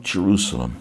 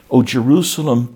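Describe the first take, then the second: First: Jerusalem repeated softer, falling away; soft grieving echo. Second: Loud, rising lament call on O Jerusalem; lamenting cry. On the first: Jesus weeping over the city, soft falling echo. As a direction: let Jerusalem fall into quiet grief. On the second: Jesus crying out over the city, loud lament. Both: Retold or imitated. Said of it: "he wept".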